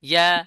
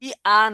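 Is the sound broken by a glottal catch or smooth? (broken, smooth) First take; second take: smooth; broken. First: The sound glides smoothly with the tongue pressed. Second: The vowels are split by a glottal catch. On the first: The speaker calls it right. "হ্যাঁ এই তো ইয়া" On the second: The speaker calls it wrong. "ই আ বললে হামজা আসতেছে আগে"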